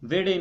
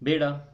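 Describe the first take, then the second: First: The word begins with a V sound. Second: The word begins with a B sound. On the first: "ਵਾਓ ਦੀ ਜਗ੍ਹਾ ਬੇ ਇਸਤੇਮਾਲ ਕਰਦੇ ਨੇ" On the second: "ਵਾਓ ਦੀ ਜਗ੍ਹਾ ਬੇ ਇਸਤੇਮਾਲ ਕਰਦੇ ਨੇ"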